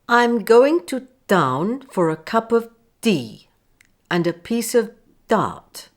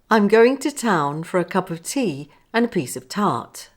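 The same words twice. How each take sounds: First: The t sounds have no puff of air. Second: The t sounds have a clear puff of air. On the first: The speaker calls it wrong. "First pronouncing with my t's without enough air" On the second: The speaker calls it right. "and then pronouncing correctly"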